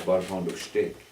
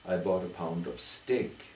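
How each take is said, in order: First: Steak begins with an sh sound. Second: Steak begins with a plain s sound. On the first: "A local farmer said, ... We put an H sound there" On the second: "they don't say steak"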